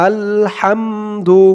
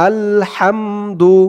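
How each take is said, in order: No difference in how they are said.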